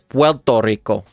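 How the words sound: The R in Puerto sounds like an L.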